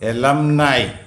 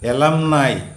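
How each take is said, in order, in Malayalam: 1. 'e-lum' ക്കു ശേഷം 'eye' ൽ അവസാനിക്കുന്നു. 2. 'e-lum' ക്കു ശേഷം 'eye' ൽ അവസാനിക്കുന്നു.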